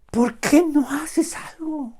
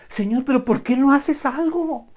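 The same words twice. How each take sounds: First: High, slow acted plea; imitating exasperation, slowly and pitched up; drawn-out protest. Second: High, loud pleading complaint; imitating an impatient believer; acted protest. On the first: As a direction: stretch each word of the mock complaint. Repeats the protest, stretched out. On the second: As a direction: push the question up in mock exasperation. Voices believer protesting to the Lord.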